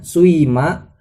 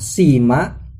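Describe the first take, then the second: First: The first vowel blends from u into i. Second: The first vowel is a pure i sound. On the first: "bisa ismam jadinya suima" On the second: "bisa kasroh jadinya sima"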